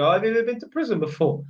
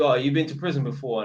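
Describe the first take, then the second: First: Light, curious quote from a female tenant; a hint of a girl asking, a touch brisk; lightly voiced young woman asking; imitating a girl tenant. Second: A lightly voiced man asking, lower and plain; mild gruff-man quote; a hint of a blunt bloke asking; imitating a male tenant. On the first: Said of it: "some of the chicks have asked me". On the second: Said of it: "a couple of men have asked me".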